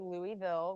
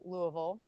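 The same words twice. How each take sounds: First: It is said the way outsiders say it. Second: It is said the way locals say it. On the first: The speaker is from elsewhere. "out of towners might say Louisville with a different pronunciation" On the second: The speaker is from the city. "I grew up here. I am a local at heart. so I pronounce it"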